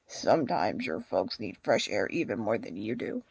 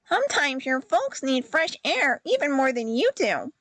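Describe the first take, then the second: First: The character voice is deeper and more manly. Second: The character voice is higher and less manly. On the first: The speaker calls it right. "Let's give him a more manly voice" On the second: The speaker calls it wrong. "Maybe I should give him a deeper voice"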